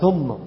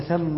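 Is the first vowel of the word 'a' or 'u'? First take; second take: u; a. First: The first vowel is a rounded 'u' sound. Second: The first vowel is an open 'a' sound. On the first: The speaker calls it wrong. "كثير من الناس الآن صار ينطقها قال ثم، ... خطأ" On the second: The speaker calls it right. "والنيم مفتوحة دائما"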